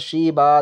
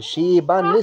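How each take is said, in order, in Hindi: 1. शब्द लंबे 'a' पर खत्म होता है, फिर रुक जाता है। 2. शब्द 'n' की आवाज़ पर खत्म होता है, आगे मिलाकर। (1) "हमने वक्फ कर दिया यहाँ पर शीबा, दो जबर अलिफ से बदल दिया हमने।" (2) "ये मिलाने की सूरत है, मिलाकर पढ़ने की सूरत।"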